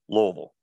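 It is said the way Louisville locals say it.

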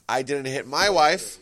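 The stress falls on the word 'my'. Somebody else's wife was hit. "so it means you hit somebody else's wife"

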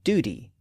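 It is said with an American pronunciation. "in American English, you're likely to hear it pronounced as duty"

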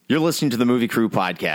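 It is said in a flat, unexcited way.

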